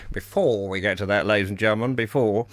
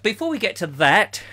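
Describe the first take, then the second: First: "before we get to that" said much lower, falling; lower aside repeat. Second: Said in the usual way. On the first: Shown as a demonstration. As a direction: drop the voice for the repeat. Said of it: "repeated lower".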